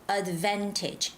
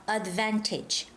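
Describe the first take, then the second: No difference in how they are said.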